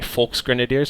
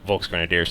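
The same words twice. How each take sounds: First: The word begins with a soft, F-like sound. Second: The word begins with a hard English V. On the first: The speaker calls it right. "more of a softer V, like a Volksgrenadiers, almost an F" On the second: The speaker calls it wrong. "I pronounce everything wrong"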